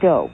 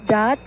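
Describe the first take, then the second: First: The syllable ends with no t sound. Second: The syllable ends with a clear t sound. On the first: This is the French pronunciation. "And not do?" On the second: This is the Italian pronunciation. "so you would say dot?"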